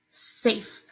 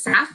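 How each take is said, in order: First: The vowel is a long A sound. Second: The vowel is a short A sound. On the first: The speaker calls it right. "Let's play with the first word here" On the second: The speaker calls it wrong. "Some kids will accidentally say s, af"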